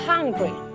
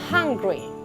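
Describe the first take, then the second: Both takes have the same delivery.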